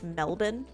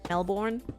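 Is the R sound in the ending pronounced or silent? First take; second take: silent; pronounced. First: The R in the ending is silent. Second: The R in the ending is pronounced. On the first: The speaker calls it right. "The R in it is kind of silent, so it's just Melbourne" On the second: The speaker calls it wrong. "a lot of Americans will pronounce Melbourne like Melbourne"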